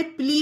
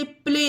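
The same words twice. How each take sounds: First: "प्ली" with a long ee ending; wrong vowel. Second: "प्ले" with an ay ending; correct vowel. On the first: Teacher rejecting a misreading, "प्ली" with ee. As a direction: say "प्ली", ee in place of ay. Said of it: "प्ली भी नहीं पढ़ा गया". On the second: Teacher giving learners the right reading, "प्ले" with ay. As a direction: say "प्ले", ay rather than ee. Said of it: "ए की मात्रा". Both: Shown as a demonstration.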